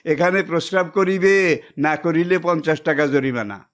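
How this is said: The pause comes before the word 'না'.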